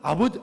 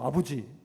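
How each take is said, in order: First: It is said in the Sangju dialect way. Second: It is said in the speaker's home dialect way. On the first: "상주는 아버" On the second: "우리는 아버지예요"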